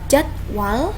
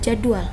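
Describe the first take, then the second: First: The second syllable sounds like wal. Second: The second syllable sounds like dual. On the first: The speaker calls it right. "yang benar adalah jadwal" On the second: The speaker calls it wrong.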